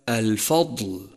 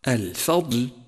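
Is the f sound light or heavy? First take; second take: heavy; light. First: The f is heavy like the d. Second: The f is light and the d heavy. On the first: The speaker calls it wrong. "وليس" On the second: The speaker calls it right. "فالفاء مرققة والضاد مفخمة"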